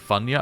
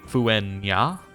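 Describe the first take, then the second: First: The name starts with a bare f sound. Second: The name starts with a fu sound. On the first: The speaker calls it wrong. "I was told I'm saying this wrong. I was saying Funya" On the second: The speaker calls it right. "instead of a F, it's a Fu. So it should be"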